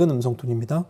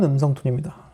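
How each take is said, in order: First: The voice has a brighter, crisper tone. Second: The voice has a fuller, richer tone. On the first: "지금은 밝은 음성 톤입니다" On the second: "지금은 풍부한 음성 톤입니다"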